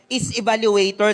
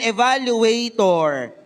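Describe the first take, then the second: First: Said in the usual way. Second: "evaluator" slowly stretched out for repetition; slow repeat-after-me. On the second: Shown as a demonstration. Preacher has the congregation repeat a word, slow "evaluator". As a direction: say "evaluator" slowly, for all to echo. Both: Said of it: "Sabihin nga natin".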